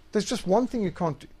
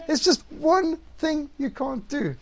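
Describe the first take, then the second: First: Said in the usual way. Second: Higher, slow, leaning hard on just; there's JUST one thing, said slowly and pointedly; slow emphatic repeat. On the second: Shown as a demonstration. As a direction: drag it out and land on just.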